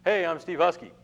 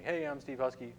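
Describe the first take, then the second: First: Loud, high "Hey, I'm Steve Husky." then hold the silence; dramatic pause. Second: "Hey, I'm Steve Husky," said evenly, then a pause; dramatic pause. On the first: Teacher demoing a dramatic pause to the class, loud and high. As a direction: announce the name loud and high, then let it hang. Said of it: "Another way you can do it is a dramatic pause". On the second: Teacher recapping the dramatic pause trick, calm then silent. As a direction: say the name and stop dead. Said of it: "dramatic pause". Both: Shown as a demonstration.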